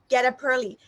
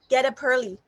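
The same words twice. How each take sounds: First: The final consonants link into the next vowels. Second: The same.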